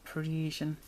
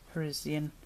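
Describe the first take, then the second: First: It is said in an American accent. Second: It is said in a British accent.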